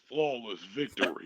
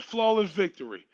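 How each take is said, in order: First: It is said in a put-on video game announcer voice. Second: It is said in the speaker's ordinary voice.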